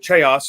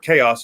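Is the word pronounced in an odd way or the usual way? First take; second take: odd; usual. First: The word is pronounced in an unusual, playful way. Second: The word is pronounced in the ordinary, standard way.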